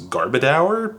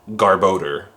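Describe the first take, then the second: First: The last syllable rhymes with 'our'. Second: The last syllable rhymes with 'door'. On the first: The speaker calls it wrong. "I used to pronounce this Pokemon's name as Garbodor" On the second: The speaker calls it right. "but it's actually Garbodor, which makes way more sense"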